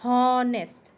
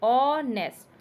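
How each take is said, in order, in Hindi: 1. शब्द की शुरुआत में साफ़ h की ध्वनि है। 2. शब्द स्वर से शुरू होता है, इसमें h की ध्वनि नहीं है। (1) "we are not pronouncing that honest" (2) "the letter H is silent in there. We are pronouncing honest"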